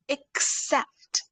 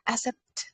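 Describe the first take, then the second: First: The K sound is clearly pronounced. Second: The K sound is weak or missing. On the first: The speaker calls it right. "K sound should be clear" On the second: The speaker calls it wrong. "Don't say accept"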